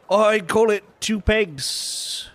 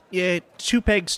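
First: Slow price quote. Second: Repeated price. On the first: Vendor names price, slow. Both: Acted.

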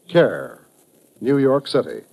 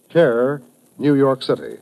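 Both takes have the same delivery.

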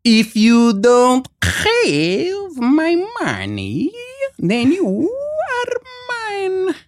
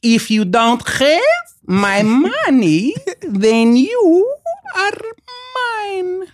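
First: High, very slow mock Russian threat, cracking at the top; imitating Malkovich's Russian accent again. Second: High, slow, drawn-out mock Russian menace; imitating Malkovich's Russian accent. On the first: Actor retelling the second take, high slow Russian accent. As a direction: drag it out high like a hammy villain. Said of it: "they go". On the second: Actor retelling his co-star's first take, high slow Russian accent. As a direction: stretch every word high and slow like a hammy villain. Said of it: "he goes".

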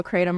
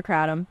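First: Kratom with a long AY, "KRAY-tum"; pronunciation variant. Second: Kratom with a short A, "KRAT-um"; pronunciation variant. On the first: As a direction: say kratom so the first vowel rhymes with day. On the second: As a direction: say kratom so it starts like "cat". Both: Shown as a demonstration. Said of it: "how do you pronounce it".

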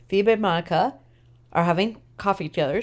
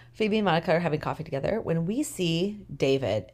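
First: Talking through a big yawn; words pulled out of shape by a yawn. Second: Said in the usual way. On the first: Real, not acted. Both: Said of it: "Sorry, big yawn 'cause I'm tired".

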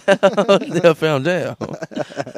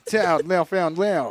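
First: Very slow, hammy French; French accent. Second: Slow mock-French name; French accent. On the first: Acted. Echoing the episode title, very slow French accent. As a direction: stretch it out in mock French, near laughter. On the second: Announcing the episode title, drawn-out French accent. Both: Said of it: "make it all French".

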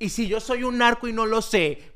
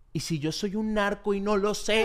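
First: Slow, laughing worried self-question; mock panic. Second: Slow, laughing paranoid whisper to himself; mock panic. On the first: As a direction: ask it with a laugh, half-panicked. (pánico fingido, lento y riendo) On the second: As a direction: wonder it half-laughing, pretending to panic. (pánico fingido entre risas) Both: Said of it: "me pongo así todo loco".

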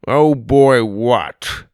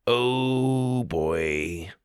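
First: Loud, suspicious challenge; demanding. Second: Soft, long drawn-out dread; said slowly. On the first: Grandpa questioning Sawyer's oh boy, loud demand. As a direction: throw the words back loudly. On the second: Sawyer caught without the guidebook, slow soft oh boy. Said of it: "Sawyer said slowly". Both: A narrator's reading.

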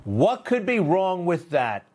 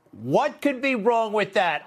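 First: "What could be wrong with that?" said slowly, leaning on "be", falling at the end; slow, stress on be. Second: "What could be wrong with that?" pitched higher, punching "could", falling at the end; stress on could. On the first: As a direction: drag it out and weigh down "be" in disbelief. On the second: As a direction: lift the pitch and hit "could" hard. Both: Shown as a demonstration.

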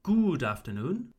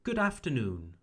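First: "good afternoon" with French-style long oo in good. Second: "Good afternoon" with short vowel in Good. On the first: Teacher shows what to avoid, long French oo in "good". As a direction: stretch "good" to "goood" in "good afternoon". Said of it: "So not". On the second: Teacher corrects the error for learners, short oo in "Good". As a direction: say "Good afternoon" with a quick English "Good". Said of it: "So not good afternoon". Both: Shown as a demonstration.

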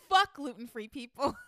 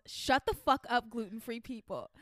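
First: Slow, punched curse; angry celebrity. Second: Slow, spat-out rant; angry celebrity. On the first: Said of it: "the celebrity said". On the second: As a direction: read it like a furious celebrity. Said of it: "the celebrity responds". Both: Acted.

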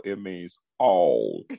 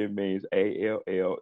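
First: "all" slow, low and drawn out; stress on all. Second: "A L L" spelled letter by letter. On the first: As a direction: lean hard on "all", slow. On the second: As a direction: say "A L L" as three separate letters. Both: Shown as a demonstration. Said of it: "don't understand the definition of every".

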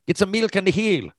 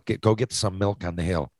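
First: High, lilting Southern Shore Newfoundland accent. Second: Said in the usual way. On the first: Shown as a demonstration. Showing how Southern Shore Newfoundlanders ask for milk, in a high, lilting local accent. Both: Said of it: "At some points of the Southern Shore".

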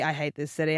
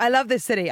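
First: Mock loathing. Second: Higher acted declaration of love; mock devotion. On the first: Acting out a torn Londoner, mock loathing. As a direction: lower acted complaint, sudden drop from devotion. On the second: Acting out a torn Londoner, mock devotion. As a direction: declare it brightly, a touch exaggerated. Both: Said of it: "When you're like".

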